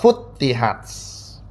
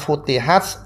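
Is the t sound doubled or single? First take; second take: doubled; single. First: The t sound is doubled and held. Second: The t sound is single and short. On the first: This follows the second reading tradition. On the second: This follows the common reading. "tanpa tasdid"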